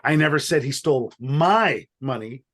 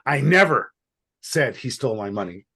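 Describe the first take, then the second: First: The stress is on "my". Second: The stress is on "never".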